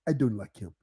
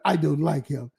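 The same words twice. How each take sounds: First: It is said in an imitated African accent. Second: It is said in the speaker's ordinary accent.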